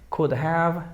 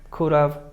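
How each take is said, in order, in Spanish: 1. La palabra have se pronuncia completa. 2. La palabra have se reduce y se une a la palabra anterior. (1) "Pronunciación formal" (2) "Pronunciación informal y como comúnmente se habla"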